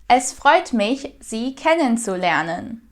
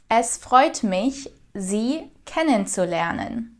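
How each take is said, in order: Both takes have the same delivery.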